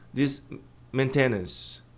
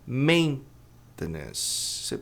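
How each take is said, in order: First: The stress is on the second syllable. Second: The stress is on the first syllable. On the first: The speaker calls it wrong. "A maioria diz, palavrão" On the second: The speaker calls it right. "A pronúncia correta é maintenance. ... Mas a tônica está aqui no começo"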